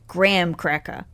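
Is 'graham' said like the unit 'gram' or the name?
gram. Graham sounds like gram, American style.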